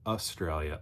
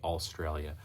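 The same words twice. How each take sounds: First: The first syllable has no L sound. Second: The first syllable has an added L sound. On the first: This is the deliberately corrected form. The speaker calls it right. "now I try to make a point to say Australia" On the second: This was a childhood accent habit. The speaker calls it wrong. "all A L Australia"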